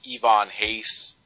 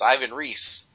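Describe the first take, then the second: First: The name is said with its native pronunciation. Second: The name is said with an anglicized, as-spelled pronunciation. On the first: This is how the person really says the name. The speaker calls it right. "if we start referring to people as Tom Nguyen and Yvonne Hayes" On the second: This is how readers would guess the name from print. The speaker calls it wrong. "One of the reasons that I purposely mispronounce names"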